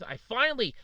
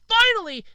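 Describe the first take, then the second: First: Said in the usual way. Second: Finally, much higher and louder, punched hard; emphatic finally. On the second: Real, not acted. Vlogger telling viewers his one good news, bursting out finally. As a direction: blurt finally out in relief, loud and high.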